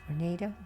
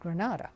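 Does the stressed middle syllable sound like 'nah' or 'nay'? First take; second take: nay; nah. First: The stressed middle syllable sounds like 'nay'. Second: The stressed middle syllable sounds like 'nah'. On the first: This is how the town's own name is said. "I understand now that it's pronounced Grenada" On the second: This is how outsiders from California said it. "but we always pronounced it Granada, being from California"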